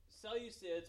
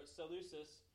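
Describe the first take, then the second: First: Y sound inside Seleucids; Seleucids with a "you" glide. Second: No y glide in Seleucus; Seleucus with "loo". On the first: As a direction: say Seleucids slowly as SEL-yoo-sids. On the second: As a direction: say Seleucus as seh-LOO-sus. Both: Shown as a demonstration. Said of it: "They say it different ways".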